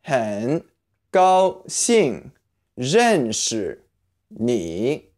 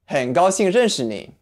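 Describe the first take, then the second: First: 很 高兴 认识 你 said word by word, each apart; slow word-by-word model. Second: 很高兴认识你 run together in one smooth breath; now say it all as one phrase; full-speed model. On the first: Teacher breaking nice to meet you into words. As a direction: spell it out one word at a time. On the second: Teacher saying the whole phrase at natural speed. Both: Shown as a demonstration. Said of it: "this phrase ... is".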